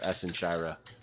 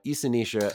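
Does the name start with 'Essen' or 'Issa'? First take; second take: Essen; Issa. First: The name is said as Essen Shira. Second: The name is said as Issa Nishra. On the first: This is another player's pronunciation. "who he pronounced as Essen Shira" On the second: This is the speaker's own pronunciation. "I don't know which of us is right"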